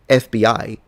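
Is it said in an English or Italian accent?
English. The letters are said with English pronunciation. "If you say F B I, you should say C I A"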